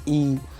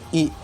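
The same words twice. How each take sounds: First: The vowel is held for longer. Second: The vowel is held only briefly. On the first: "इसको बड़ा बोल लेते हैं" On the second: "इसको छोटा बोल लेते हैं"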